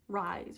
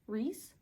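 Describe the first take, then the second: First: The vowel sounds like 'eye'. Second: The vowel sounds like 'ee'. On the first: "to me, like, that's Rise" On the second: "I have heard people call him Reese"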